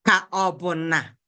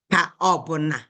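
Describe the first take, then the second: No difference in how they are said.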